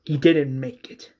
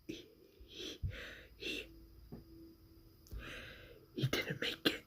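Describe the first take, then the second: First: Said out firmly, a bit louder; louder repeat. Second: Hushed, halting bad news; faltering whisper. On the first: Retold or imitated. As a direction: say it again so it lands. Repeats news after "What?. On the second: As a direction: stumble through it in a whisper.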